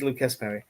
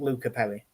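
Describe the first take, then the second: First: The first name ends with an s sound. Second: The first name ends without an s sound. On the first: The speaker calls it right. "They do pronounce the S" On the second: The speaker calls it wrong. "It's not Luca Perry"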